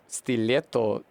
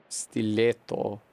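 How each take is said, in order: Both takes have the same delivery.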